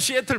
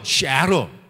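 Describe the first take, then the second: First: The middle consonant is a clear t sound. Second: The middle consonant is a soft r-like flap. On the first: The speaker calls it wrong. "못 알아요" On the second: The speaker calls it right. "T자 발음이 R자로 굴리는"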